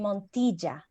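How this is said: It is said in native Venezuelan Spanish. "but it's actually Montilla"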